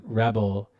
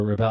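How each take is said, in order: First: Rebel said REB-el, stress on the first syllable; one way of saying Rebel, REB-el; unsure pronunciation. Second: Rebel said re-BELL, stress on the second syllable; trying Rebel the other way, re-BELL; other pronunciation. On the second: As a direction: say Rebel as ruh-BELL, last syllable strong. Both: Shown as a demonstration. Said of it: "I never know how to say it properly".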